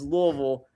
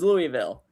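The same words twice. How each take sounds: First: Pronounced the way Kentucky locals say it. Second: Pronounced the way outsiders usually say it. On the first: This is how people from the region say it. "us Kentuckians say it is" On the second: This is how people from elsewhere say it. "How you guys say it is"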